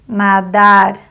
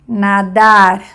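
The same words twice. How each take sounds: First: The final r sounds like a Spanish r. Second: The same.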